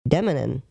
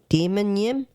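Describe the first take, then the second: First: It begins with a short 'dem-uh', then 'nim'. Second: It begins with the word 'demon', then 'yim'. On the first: This is the dictionary pronunciation. The speaker calls it right. "when I hit the pronunciation, I'm like, that's not what I thought" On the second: This is a first guess from the spelling. The speaker calls it wrong. "when I seen it first, and I looked at it, I went"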